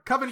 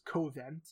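First: Covent is said with a British pronunciation. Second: Covent is said with an American pronunciation. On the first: The speaker calls it right. "I actually know how to pronounce that word" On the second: The speaker calls it wrong. "I could have gone full American"

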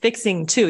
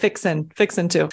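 First: Both words are said fully and carefully. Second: The words are reduced and run together. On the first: The speaker calls it wrong. "But you don't pronounce it like fixing to" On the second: The speaker calls it right. "You pronounce it fixing to"

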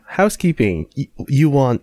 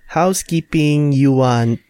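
First: It is said in the speaker's normal accent. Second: It is said in a put-on Filipino accent.

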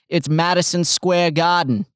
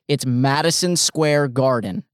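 First: It is said in a Boston accent. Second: It is said without a Boston accent. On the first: The speaker calls it wrong. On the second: The speaker calls it right.

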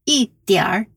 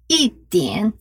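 First: It is said with a northern pronunciation. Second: It is said without a northern pronunciation.

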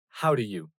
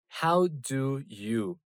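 First: The words are run together and reduced. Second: Each word is pronounced fully and separately. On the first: The speaker calls it right. "In the spoken language, this may sound like" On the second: The speaker calls it wrong. "We don't normally say"

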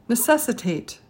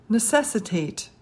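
No difference in how they are said.

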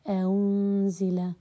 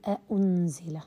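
First: The second hamza is softened between sounds. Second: The second hamza is fully pronounced. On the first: The speaker calls it right. "مثال ذلك بالتسهيل" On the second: The speaker calls it wrong. "ولا أقول أأنزل"

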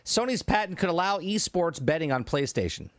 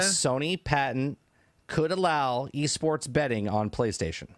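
First: It is read at normal speed. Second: It is read slowly.

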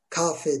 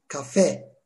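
First: The stress is on the first syllable. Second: The stress is on the last syllable. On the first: The speaker calls it wrong. "Kafe değil" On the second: The speaker calls it right. "Dolayısıyla son heceyi vurguluyoruz"

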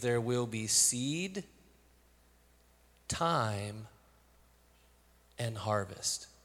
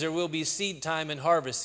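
First: Seed, time and harvest are separated by pauses. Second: Seed time is said as one phrase.

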